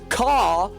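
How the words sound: It is said in an English accent. "someone in England says caw"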